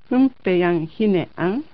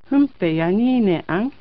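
First: The 'n' and 'h' are said separately. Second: The 'n' links into a 'ni' sound.

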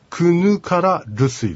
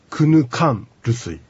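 First: The full 'ra' syllable comes before 'rusuy'. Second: An 'n' replaces 'ra' before 'rusuy'. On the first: This is the underlying full form. "本当の発音は" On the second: This is how the two r sounds merge in speech. "なかなか発音しにくいので、クヌカンルスイというふうになります"

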